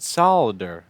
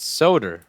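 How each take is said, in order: First: The L sound is pronounced. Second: The L sound is left out. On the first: The speaker calls it wrong. "I pronounce it solder. Am I wrong?" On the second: The speaker calls it right. "It's soder, like Hodor"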